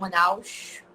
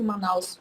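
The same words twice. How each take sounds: First: Said in a Manaus accent, with S like sh. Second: Said in the speaker's plain accent, with ordinary S.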